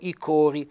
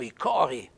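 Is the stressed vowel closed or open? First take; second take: closed; open. First: The stressed vowel is said closed. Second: The stressed vowel is said open. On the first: This is how it is said in Riva. "A Riva dicono" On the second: This is how it is said in Arco. "con l'accento fonico aperto"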